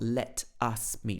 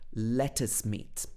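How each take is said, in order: First: Let and us are said as separate words. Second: Let and us run together without a break. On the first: "not let us meet" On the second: "These two words join together"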